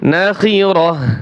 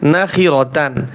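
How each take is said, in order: First: The word ends with a soft h sound. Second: The word ends with a full tan sound. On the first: The reader stops on this word. "গোলতা ওয়াকফের সময় হা উচ্চারণ হয়।" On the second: The word is read in the middle of flowing recitation. "এখানে আমি কি পড়েছি?"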